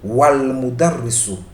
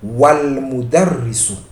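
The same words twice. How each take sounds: The two takes are said the same way.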